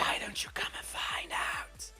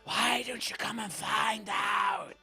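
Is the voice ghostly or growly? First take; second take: ghostly; growly. First: It is said in a ghostly voice. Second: It is said with a growl.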